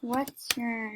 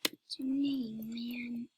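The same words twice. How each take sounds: First: Drawn-out, soft question; not normal. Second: Slow, breathy whisper. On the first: Acted. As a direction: stretch the words out slowly, dragging "name". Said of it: "Okay, normal now". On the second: Shown as a demonstration. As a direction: whisper it slowly. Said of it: "I'm just".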